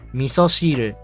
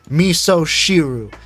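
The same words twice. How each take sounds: First: It is pronounced with Japanese sounds. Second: It is pronounced with English sounds. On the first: The speaker calls it right. "say these things the right way first" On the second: The speaker calls it wrong. "someone that has zero exposure to the Japanese language"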